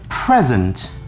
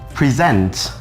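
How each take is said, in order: First: The stress is on the first syllable. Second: The stress is on the second syllable. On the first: It is a noun meaning a gift. "I'm giving you a present" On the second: It is a verb meaning to show or introduce. "I presented the new plan in front of the boards"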